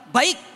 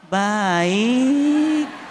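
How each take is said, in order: First: It is said plainly and firmly. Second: It is said softly and drawn out.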